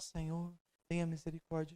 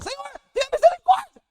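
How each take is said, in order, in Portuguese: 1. A voz está baixa e suave. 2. A voz está no volume mais alto. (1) "Então você começa a oração" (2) "Elevando a sua voz cada vez mais. Na terceira vez você fala"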